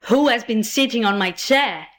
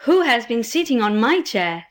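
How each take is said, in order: First: Lightly voiced big bear; a hint of the big bear crying out; great big bear voice. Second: Lightly voiced middle bear; a hint of the middling bear crying out; middling-sized bear voice. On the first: Great big bear at his chair, lightly done great big voice. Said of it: "cried out in his great big voice". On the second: Middling-sized bear at the chair, lightly done middling voice. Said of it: "in a middling-sized voice". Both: A narrator's reading.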